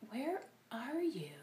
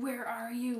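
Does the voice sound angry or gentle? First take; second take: gentle; angry. First: It is said in a gentle, caring tone. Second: It is said in an angry, demanding tone. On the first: The speaker is lovingly looking for someone. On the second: The speaker is scolding and demanding an answer.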